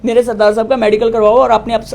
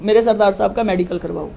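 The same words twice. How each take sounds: First: The same demand again, louder and firmer; repeating her demand louder to the SHO; insistent repeat. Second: Said in the usual way. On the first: Retold or imitated. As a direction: hammer the demand home a second time.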